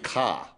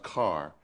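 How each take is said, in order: First: It is said in a Boston accent. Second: It is said in a North Carolina accent. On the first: "in Boston it would be Ka" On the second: "the uh, North Carolina pronunciation"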